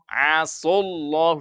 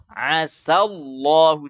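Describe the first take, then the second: First: The s is heavy and thick. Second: The s is light, with an open mouth. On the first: It means God disobeyed. The speaker calls it wrong. "membacanya tebal" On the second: It means may God. The speaker calls it right. "dibaca dengan istifal sa"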